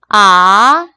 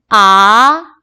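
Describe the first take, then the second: The two takes are said the same way.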